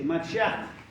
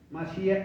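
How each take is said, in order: First: The final sound is a harsh Spanish j. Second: The final sound is a soft English h. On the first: The speaker calls it wrong. "incorrecto esta pronunciación de Mashiach. Escuche, Mashiach, con J" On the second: The speaker calls it right. "Se pronuncia la H como la H en inglés"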